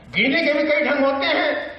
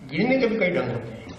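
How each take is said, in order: First: High, declaimed line of verse; raised-pitch talky recital; Bhavani Prasad Mishra. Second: Brisk, conversational line of verse; Bhavani Prasad Mishra. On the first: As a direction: lift the line up high for the audience. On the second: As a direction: say the verse as casual chat. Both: Acted. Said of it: "बातचीत की शैली".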